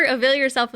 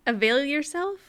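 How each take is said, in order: First: Said in the usual way. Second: "Avail yourself" with a questioning rise; puzzled question. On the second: Real, not acted. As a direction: query "Avail yourself" as if it makes no sense. Queries the odd wording just read.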